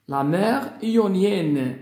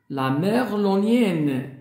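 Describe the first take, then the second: No difference in how they are said.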